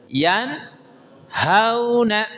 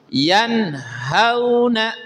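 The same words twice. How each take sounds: No difference in how they are said.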